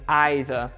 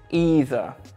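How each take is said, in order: First: It is pronounced the British English way. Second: It is pronounced the American English way. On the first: "In British English, we are saying either" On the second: "in American English, they are pronouncing it either"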